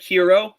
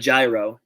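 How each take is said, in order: First: The word begins with an H sound. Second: The word begins with a J sound. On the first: "Do you call it hero? ... H E R O" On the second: "or do you call it a gyro, ... G Y R O?"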